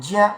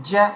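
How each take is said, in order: No difference in how they are said.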